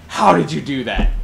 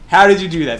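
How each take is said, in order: First: Said in the usual way. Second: Louder, pressing repeat of the question; mock Swedish guy asking again, amazed. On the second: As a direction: ask it again, louder and more insistent. Swede asks again, amazed.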